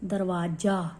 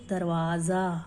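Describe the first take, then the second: First: The last syllable starts with a 'j' sound. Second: The last syllable starts with a 'z' sound.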